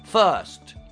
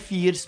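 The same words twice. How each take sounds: First: The vowel is a murmured, groaning 'er' sound. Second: The vowel is a clear, Italian-style 'i' sound. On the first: The speaker calls it right. "uomo che sta morendo, è troppo importante in inglese" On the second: The speaker calls it wrong. "non è first"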